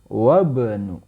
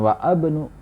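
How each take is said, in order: First: Wa runs straight into bnu with no vowel. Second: A separate a vowel is sounded before bnu. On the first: The speaker calls it right. "Wabnu ya" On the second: The speaker calls it wrong. "Bukan wa abnu"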